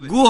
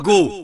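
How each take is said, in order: First: The vowel is an 'oo' sound. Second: The vowel is an 'oh' sound. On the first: The speaker calls it wrong. "গু হবে না" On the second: The speaker calls it right. "হবে গো"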